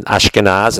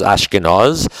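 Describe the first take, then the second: First: Said in the usual way. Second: "Ashkenaz" with the last vowel rounded to aw; Ashkenazi pronunciation. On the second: Shown as a demonstration. Teacher showing how they pronounce words, "Ashkenaz" with an aw vowel. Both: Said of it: "They'll pronounce words like".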